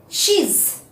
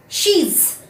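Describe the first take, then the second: Both takes have the same delivery.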